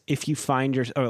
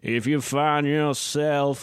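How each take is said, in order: First: It is said in the speaker's ordinary voice. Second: It is said in a put-on imitation voice.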